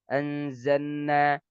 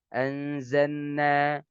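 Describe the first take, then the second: Both takes have the same delivery.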